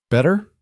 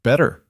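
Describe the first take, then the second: First: BETTER rising high into a question; testing the word. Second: Said in the usual way. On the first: A narrator's reading. Woman echoing his word to test it, BETTER lifted questioningly. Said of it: "as if testing the word".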